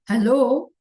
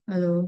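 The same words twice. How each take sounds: First: It is said loudly, with clear effort. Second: It is said quietly, with little energy.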